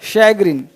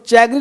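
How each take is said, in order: First: The word begins with an 'sh' sound. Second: The word begins with a 'ch' sound. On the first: The speaker calls it right. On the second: The speaker calls it wrong.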